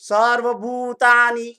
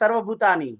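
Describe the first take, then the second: First: The vowel in 'bhu' is long and drawn out. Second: The vowel in 'bhu' is short, not drawn out. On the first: The speaker calls it right. "ભૂ જે છે લંબાયો મેં" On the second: The speaker calls it wrong. "તમે આવું બોલ્યા ને"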